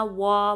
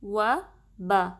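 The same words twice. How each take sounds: First: وا said heavy, the wrong way; a heavy وا to show the mistake. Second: و and با said light and thin. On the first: Teacher showing students the wrong way to say it. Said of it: "ایسے نہیں". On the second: Teacher showing students the correct light sounds. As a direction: keep و and با thin. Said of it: "وا اور با باریک رہیں گے". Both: Shown as a demonstration.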